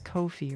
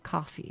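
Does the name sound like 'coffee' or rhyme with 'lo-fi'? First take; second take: lo-fi; coffee. First: It is said to rhyme with lo-fi. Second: It is said like the word coffee. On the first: The speaker calls it wrong. "I read it like lo-fi" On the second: The speaker calls it right. "It's supposed to be like buying a coffee"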